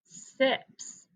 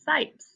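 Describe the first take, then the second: First: The vowel is a short i, as in sit. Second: The vowel is a long i, as in ice. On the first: "change that to a short vowel" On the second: "If we treat the I like a long I, it would say sipes"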